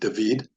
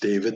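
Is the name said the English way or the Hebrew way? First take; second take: Hebrew; English. First: It has the Hebrew pronunciation of the name. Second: It has the English pronunciation of the name. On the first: "in Hebrew, my name would be pronounced David" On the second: "My name is David"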